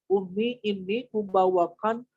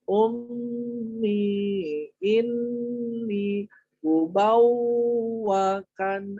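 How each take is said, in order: First: The syllables are said quickly without lengthening. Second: The syllables are held long and said slowly. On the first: The speaker calls it wrong. "jangan gini" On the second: The speaker calls it right. "Harus ditahan"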